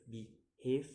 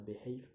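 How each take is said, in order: First: "behave" broken in two, rising at the end; second-syllable stress. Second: Said in the usual way. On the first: Shown as a demonstration. Teacher showing stress, "behave" in two rising beats. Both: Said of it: "put on the second".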